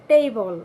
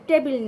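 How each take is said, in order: First: টেবল louder, as "tey-bol"; stretched, falling "ey" in টেবল; corrected "table". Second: টেবিল as "te-bil", short e; short vowels in টেবিল; wrong "table". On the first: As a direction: glide the first vowel of টেবল. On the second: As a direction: say টেবিল with no glide. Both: Shown as a demonstration. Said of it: "টেবিল না".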